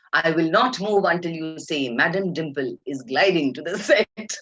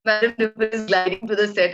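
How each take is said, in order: First: Slow, insistent mock diva; Dimple Kapadia. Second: Higher announcement, quicker than the diva; amused imitation of a dutiful walkie call; imitating reluctant assistant. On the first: Star refusing to move before assistant obeys, imitated imperious insistence. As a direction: spell out the demand with imitated grandeur. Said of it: "this poor girl was standing there looking at her". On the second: Poor assistant announcing star on intercom, imitated compliance. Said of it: "that poor girl had to say".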